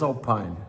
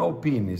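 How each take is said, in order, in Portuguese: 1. A palavra é pronunciada do jeito inglês. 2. A palavra é pronunciada do jeito italiano. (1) "se for inglês" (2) "se for italiano"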